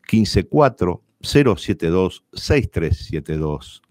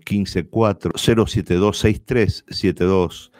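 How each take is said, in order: First: It is said slowly, number by number. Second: It is said at normal, quicker speed.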